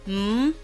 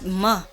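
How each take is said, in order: First: The consonant is said alone with no vowel. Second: The consonant is followed by an added uh. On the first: The speaker calls it right. "Just pronounce them as pure sounds" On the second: The speaker calls it wrong.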